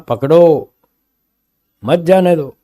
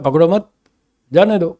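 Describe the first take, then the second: First: The pause comes after 'पकड़ो'. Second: The pause comes after 'मत'.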